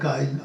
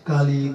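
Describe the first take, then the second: First: The i sound comes before the l. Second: The i sound comes after the l.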